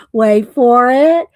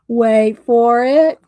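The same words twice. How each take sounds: First: Drawn-out playful tease; teasing suspense. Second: Slower, stretched playful tease; teasing suspense. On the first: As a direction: build suspense slowly. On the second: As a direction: hold them in suspense. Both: Real, not acted. Teasing a funny reveal.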